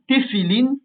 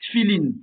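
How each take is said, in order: First: A vowel is heard between t and f. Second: No vowel is heard between t and f. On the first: The speaker calls it right. "même remarque que pour Kli, qui doit se prononcer Keli" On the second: The speaker calls it wrong. "et non pas"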